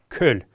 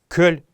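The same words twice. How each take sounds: First: The word ends with a consonant sound. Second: The word ends with a consonant sound.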